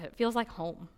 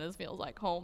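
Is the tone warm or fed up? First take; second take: warm; fed up. First: It is said warmly and contentedly. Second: It is said with weary annoyance.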